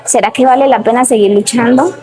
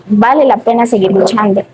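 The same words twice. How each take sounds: First: Questioning, voice rising at the end on "luchando"; duda interior. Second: Firm statement, "luchando" falling at the end; inner reassurance. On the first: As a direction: ask it as a doubting question to yourself, lifting "luchando". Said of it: "o sea, donde digo". (pregunta con duda, subiendo el tono en "luchando") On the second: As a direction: answer your own doubt, letting "luchando" come down. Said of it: "otro momento en mi cabeza que me dice". (afirmación convencida, bajando el tono en "luchando") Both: Retold or imitated.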